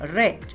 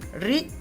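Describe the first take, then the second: First: The vowel is short, as in 'red'. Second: The vowel is long, as in 'reed'. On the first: It is the past tense. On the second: It is the present tense.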